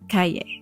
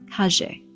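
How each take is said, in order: First: It is said with a neutral Spanish accent. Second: It is said with an Argentine accent.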